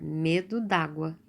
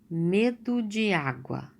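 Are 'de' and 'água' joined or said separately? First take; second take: joined; separate. First: The words 'de' and 'água' merge into one. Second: The words 'de' and 'água' are said separately.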